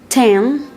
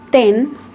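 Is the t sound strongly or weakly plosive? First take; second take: strongly; weakly. First: The t is released with a strong burst. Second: The t is released with a weak burst. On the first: "the T sound is more plosive in English than in Spanish" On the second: "in Spanish, we have ten"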